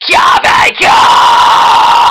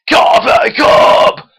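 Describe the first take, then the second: First: It is a high-pitched fry scream, mouth open wide. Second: It is a mid-pitched fry scream, mouth relaxed.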